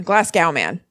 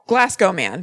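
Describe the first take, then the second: First: Glasgow ending in "gow" to rhyme with cow; alternative pronunciation. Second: Said in the usual way. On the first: Shown as a demonstration. Host unsure of the word tries Glasgow ending in an "ow" sound. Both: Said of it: "I don't know how to pronounce things".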